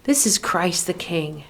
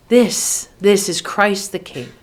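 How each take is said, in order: First: Said in the usual way. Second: "This" set apart and stressed, then the full line. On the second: Acted. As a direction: punch "This", pause, then say "This" once more into the phrase. Refrain restated with emphasis on This.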